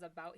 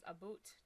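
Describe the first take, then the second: First: Said in the usual way. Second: "a boot", with an oo vowel for "about"; Canadian "about". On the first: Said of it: "he says a boot". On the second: Shown as a demonstration. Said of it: "when he says about".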